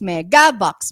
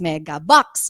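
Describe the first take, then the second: First: The emphasis is on the second syllable. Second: The emphasis is on the third syllable. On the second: "and then the final one"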